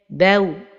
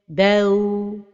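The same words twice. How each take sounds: First: The end of the syllable is kept short. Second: The end of the syllable is drawn out long. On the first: The speaker calls it right. "la prononciation correcte" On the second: The speaker calls it wrong. "donner beaucoup de temps vers la fin de prononciation"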